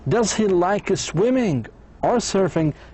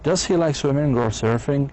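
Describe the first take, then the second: First: The voice rises on swimming, then falls on surfing. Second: The voice rises at the end of the question. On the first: It asks the listener to choose one of two options. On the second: It asks for a yes or no answer.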